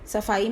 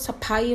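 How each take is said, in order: First: The consonant is said as an f sound. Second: The consonant is said as an aspirated ph sound. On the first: The speaker calls it right. "फ के नीचे बिंदी लगाकर फ बनाना पड़ेगा" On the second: The speaker calls it wrong. "नहीं तो सफाई हो जाएगा, दैट इज रॉन्ग वर्ड"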